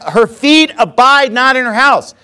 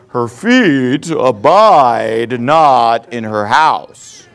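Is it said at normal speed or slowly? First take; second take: normal speed; slowly. First: It is said at a normal pace. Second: It is said more slowly and deliberately.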